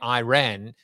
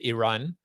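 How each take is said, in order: First: Iran is said the American way. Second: Iran is said the South African way. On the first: "here they would say Iran" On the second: "in South Africa, I guess we would have said Iran"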